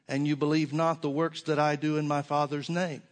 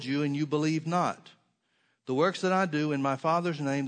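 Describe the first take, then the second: First: There is no pause after 'believe not'. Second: There is a pause after 'believe not'. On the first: The works themselves are what is not believed. "Let me read it a little differently to you" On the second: Disbelief is stated as a complete thought. "and then there's a colon or a pause"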